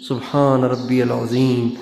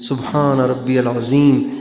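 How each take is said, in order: No difference in how they are said.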